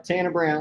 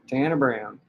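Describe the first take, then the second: First: It is said in his plain voice. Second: It is said with a country twang.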